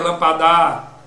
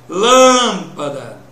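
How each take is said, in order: First: The last syllable is lengthened and stressed. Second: The first syllable is lengthened and stressed. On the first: The speaker calls it wrong. "Se eu prolongasse o dá" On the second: The speaker calls it right. "a sílaba que pôde ser prolongada foi lã"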